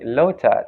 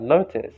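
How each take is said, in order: First: "lotus" said "lo-tat", final s dropped; Thai-style "lotus"; Thai pronunciation. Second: Said in the usual way. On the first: Shown as a demonstration. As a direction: demonstrate "lotus" ending on a stop, no S. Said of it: "they pronounce like lotus instead of". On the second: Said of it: "instead of lotus".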